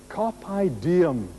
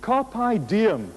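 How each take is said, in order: First: Said in the usual way. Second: "Carpe diem" said as KAR-pay DEE-em; slow Latin "Carpe diem", stress on "Carpe"; Latin phrase. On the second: Shown as a demonstration. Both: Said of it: "the phrase was".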